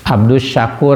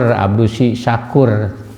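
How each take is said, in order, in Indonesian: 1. Kedua kata itu menyambung tanpa vokal tambahan. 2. Vokal tambahan "i" menyambungkan kedua kata. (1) "padahal mah abdus saku syukur gitu" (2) "dibaracak ku pembawa berita teh abdusi syakur"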